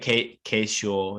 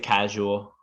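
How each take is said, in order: First: The first vowel is not a short a. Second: The first vowel is a short a. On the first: The speaker calls it wrong. "If you say ca- casual, it people won't understand you" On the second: The speaker calls it right. "I would say casual"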